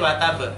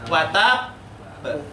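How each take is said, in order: First: The final b is said once, short. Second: The final b is held long, doubled. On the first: The speaker calls it wrong. "kita bacanya tidak boleh watab" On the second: The speaker calls it right. "kita bacanya baknya dua gini"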